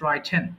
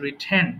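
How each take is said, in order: First: The first syllable has a long 'ai' vowel. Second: The first syllable has a short 'i' vowel. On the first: The speaker calls it wrong. "Not রাইটেন / wrong pronunciation" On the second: The speaker calls it right. "So it should be just রিটেন"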